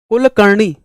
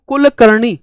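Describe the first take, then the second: Both takes have the same delivery.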